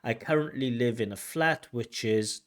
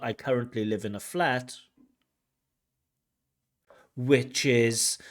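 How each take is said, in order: First: It flows on with no pause before "which is." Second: There is a pause before "which is." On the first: The speaker is still talking. The speaker calls it right. "when a person speaks at a regular, normal pace, we don't have that thing" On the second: The speaker seems to have finished. The speaker calls it wrong.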